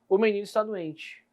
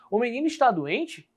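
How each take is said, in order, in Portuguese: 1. É dita sumindo no final. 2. É dita como pergunta, subindo. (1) "Mas eu posso ter também uma reticências" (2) "Olha como a entonação muda dentro do meu texto"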